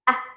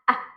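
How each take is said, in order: No difference in how they are said.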